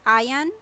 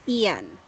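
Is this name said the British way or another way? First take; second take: another way; British. First: The name is said in a non-British way. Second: The name is said the British way. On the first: Some other speakers say it like this. "some are pronouncing this word as Ian" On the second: British people say it like this. "for British people, it's Ian"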